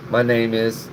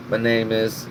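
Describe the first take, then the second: No difference in how they are said.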